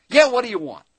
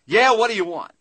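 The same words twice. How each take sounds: First: Loud, high, surly shout from the back; the same gruff clerk again; rude clerk. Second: Loud, high, surly shout from the back; a gruff clerk who can't be bothered; rude clerk. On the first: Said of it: "a voice comes back from the back". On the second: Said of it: "this voice comes back from the back". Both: Retold or imitated.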